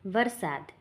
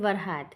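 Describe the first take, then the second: First: The middle consonant is an s sound. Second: The middle consonant is an h sound. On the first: This is the standard language form. "Gujarati ભાષા" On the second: This is the local dialect form. "સ્થાનિક બોલી"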